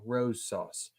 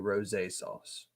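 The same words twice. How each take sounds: First: The word rose is said the plain, everyday way. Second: The word rose is said the fancier, French-like way. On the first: The speaker calls it wrong. "I feel like I'm always saying this wrong" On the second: The speaker calls it right. "but I think it's actually"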